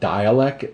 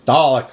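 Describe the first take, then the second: First: It is said so it sounds like 'dialect'. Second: It is said so it sounds like 'Dalek'. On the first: The speaker calls it wrong. "I always go like a dialect" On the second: The speaker calls it right. "it's Dalek, stop it"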